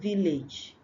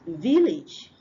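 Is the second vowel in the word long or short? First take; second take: long; short. First: The second vowel is long. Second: The second vowel is short. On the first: The speaker calls it wrong. "not village" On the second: The speaker calls it right. "short a"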